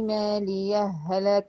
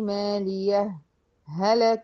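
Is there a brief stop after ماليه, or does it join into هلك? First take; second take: joined; brief stop. First: ماليه merges straight into هلك without stopping. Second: A brief stop separates ماليه from هلك. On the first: "ان انا اعمل ادغام بس ما اعملش ايه؟ سكت" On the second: "السكت يمنع ايه؟ الإدغام... ادي اول وجه في الاداء"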